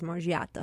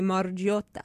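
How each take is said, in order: First: The name is said with an American accent. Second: The name is said with an Italian accent. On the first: "But the American says Margiotta" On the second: "If you're Italian, you're going to say Margiotta. With that accent"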